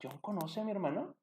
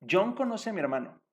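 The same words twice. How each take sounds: First: Same words turned into a question with the voice rising at "mi hermano". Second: Statement tune, falling at the end on "hermano"; flat statement. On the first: Teacher showing students a question made by tune alone, rising end. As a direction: lift the end of "¿John conoce a mi hermano?" into a question. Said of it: "podemos cambiar la entonación". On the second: Teacher showing students the statement form, falling tune. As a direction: say "John conoce a mi hermano" as a plain fact with a falling close. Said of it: "Eso es una afirmación". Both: Shown as a demonstration.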